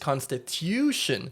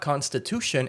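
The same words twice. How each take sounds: First: The middle syllable is said like 'tyoo'. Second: The middle syllable is said like 'too'. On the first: The speaker calls it right. "it's constitution" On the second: The speaker calls it wrong. "it's not constitution"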